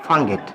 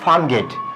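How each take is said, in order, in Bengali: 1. শব্দ দুটো জুড়ে গিয়ে ছোট করে বলা হয়। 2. দুটো শব্দই পুরো বলা হয়। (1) "দ্রুত কথা বলার সময় দেখবেন অনেকে উচ্চারণ করে ফাঙ্গেট" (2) "আমরা একটা শব্দ বলি"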